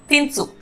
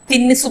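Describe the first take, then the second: First: The middle 'i' vowel is dropped. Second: The middle 'i' vowel is fully pronounced. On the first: "बात करने का flow में बोलेंगे तिन्सु। तो इधर हम ई मात्रा स्किप करेंगे" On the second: "इसको तिन्निसु बोलते हैं"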